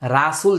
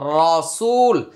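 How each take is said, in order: First: The first syllable has a light, open vowel. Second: The first syllable has a heavy, rounded vowel. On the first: The speaker calls it wrong. "রাসুল যেন না হয়" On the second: The speaker calls it right. "র র র র, রসুল"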